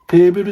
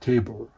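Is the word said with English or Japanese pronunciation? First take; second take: Japanese; English. First: The word is said with Japanese pronunciation. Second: The word is said with English pronunciation. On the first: The speaker calls it right. "We just say table seki" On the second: The speaker calls it wrong. "We not gonna say table"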